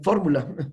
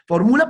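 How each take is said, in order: First: The stress is on the first syllable. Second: The stress is on the second syllable. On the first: It names a formula, as a noun. The speaker calls it wrong. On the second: It tells someone to formulate, as a verb. The speaker calls it right.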